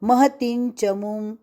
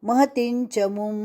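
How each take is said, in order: No difference in how they are said.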